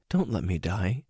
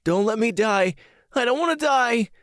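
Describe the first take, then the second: First: Subdued sadness. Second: High-pitched acted panicked cry; terrified screaming. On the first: Acted. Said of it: "She had the saddest look in her eyes and said". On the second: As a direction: scream out as a terrified boy pleading for life. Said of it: "started thrashing around in his bed and screaming".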